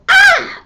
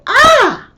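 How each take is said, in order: First: Very high, loud deliberate scream; voluntary scream demo. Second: High, loud sudden scream of pain; involuntary cry demo. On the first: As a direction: scream on purpose in anger. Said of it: "But if they go". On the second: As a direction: cry out when hurt. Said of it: "they'll go". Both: Shown as a demonstration.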